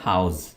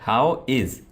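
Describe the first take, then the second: First: It is merged into one short word. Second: It is said as two separate words. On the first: "जबकि यहां पर हमने कैसे बोला" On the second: "अगर हम इसको रिड्यूस ना करते"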